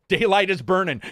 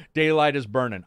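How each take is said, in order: First: Higher, louder barked dad line; imitating dad. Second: Said in the usual way. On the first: Son imitating his father's early morning call, loud mock bark. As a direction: play the impatient father calling out. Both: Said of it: "that was my dad".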